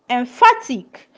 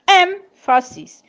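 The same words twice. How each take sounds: First: "emphatic" with the weight on PHA; stress on second syllable. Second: "emphasis" with EM high and drawn out; stress on first syllable. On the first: Teacher showing students word stress, second syllable of "emphatic" stressed. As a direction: lean on the middle of "emphatic": em-PHA-tic. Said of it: "stress falls on the second syllables". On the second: Teacher showing students word stress, first syllable of "emphasis" stressed. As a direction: hit the EM of "emphasis", then drop. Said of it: "stress falls on the first syllable". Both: Shown as a demonstration.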